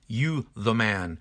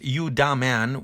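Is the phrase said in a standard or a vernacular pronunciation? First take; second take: standard; vernacular. First: It is said with a standard pronunciation. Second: It is said with a vernacular pronunciation.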